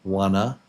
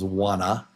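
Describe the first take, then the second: First: The words are reduced into one short word. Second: The words are reduced into one short word.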